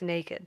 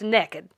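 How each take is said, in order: First: It is said with the standard 'nay-kid' vowel. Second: It is said Southern-style, like 'neck-id'. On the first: The person has no clothes on. "one means you ain't got no clothes on" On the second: The person has no clothes on and is up to something. "you ain't got no clothes on and you up to something"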